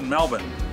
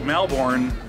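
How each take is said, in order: First: The name is said the way locals say it. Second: The name is said the way it is spelled. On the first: "locals pronounce it Melbourne" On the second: "when you spell it, it looks like Melbourne"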